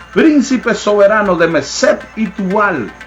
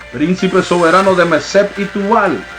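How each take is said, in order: No difference in how they are said.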